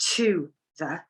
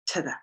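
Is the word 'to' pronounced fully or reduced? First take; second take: fully; reduced. First: The word 'to' is pronounced fully and separately. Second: The word 'to' is reduced and linked to 'the'. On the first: The speaker calls it wrong. "We do not say" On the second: The speaker calls it right. "we just say"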